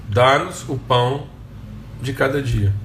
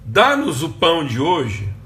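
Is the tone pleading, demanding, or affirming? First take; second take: affirming; pleading. First: It is said as a calm affirmation. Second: It is said as a pleading request.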